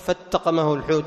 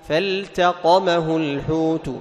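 First: The L is merged into the following T. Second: The L is clearly pronounced before the T. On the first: The speaker calls it wrong. "انتبه يا أيها القارئ أن تدغم عليه، ما تقول" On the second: The speaker calls it right. "تظهر لام الفعل عند التاء"

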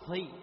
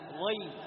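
First: The consonant is released with a puff of breath. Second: The consonant is voiced with no breath escaping. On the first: The speaker calls it wrong. "شوف ما أقول" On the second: The speaker calls it right. "ضي بدون نفس"

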